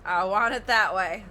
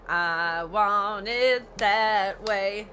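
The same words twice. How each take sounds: First: Louder repeat. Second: Slow, drawn-out spoiled bride; bratty demand. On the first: Real, not acted. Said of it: "repeats the bride's line". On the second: Retold or imitated. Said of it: "be a bitch ass and say".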